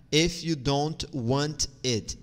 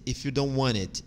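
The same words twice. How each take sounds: First: "If you don't want it" slowly, word by word; slow careful model. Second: "If you don't want it" run together at normal speed; linked model. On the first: ("If you don't want it" devagar, palavra por palavra) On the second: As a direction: link the words of "If you don't want it" smoothly. ("If you don't want it" emendado, em ritmo normal) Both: Shown as a demonstration. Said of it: "tu vai dizer if you don't want it".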